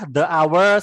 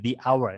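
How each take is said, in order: First: 'The' is said with a short uh vowel. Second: 'The' is said with a long ee vowel. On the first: The speaker calls it wrong. "ngomong pakai the salah" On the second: The speaker calls it right. "maka dia juga pakainya the"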